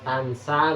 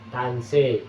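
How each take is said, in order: First: The final vowel is an open a sound. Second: The final vowel is tilted toward an e sound. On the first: "bunyi awal" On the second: "Dibaca imalah"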